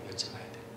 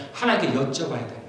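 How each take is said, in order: First: 여쭤봐야 돼요 repeated as a breathy whisper; whispered echo. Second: Said in the usual way. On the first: Real, not acted. Pastor repeats his point to the congregation in a whisper. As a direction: whisper the words back to yourself.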